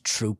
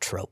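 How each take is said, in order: First: The vowel is a long 'oo' sound. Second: The vowel is a long 'oh' sound. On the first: The speaker calls it right. "it's pronounced troop" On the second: The speaker calls it wrong. "and not trope"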